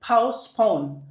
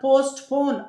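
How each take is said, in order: First: The t sound is silent. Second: The t sound is pronounced. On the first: The speaker calls it right. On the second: The speaker calls it wrong.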